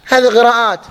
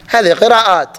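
Both takes have the same delivery.

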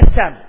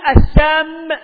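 First: The final m sound is short and single. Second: The final m sound is long and doubled. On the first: It means death. The speaker calls it right. "والصواب أن جذرها سوما" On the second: It means poison. The speaker calls it wrong. "يجعلها سم، فيجعل جذرها سمما"

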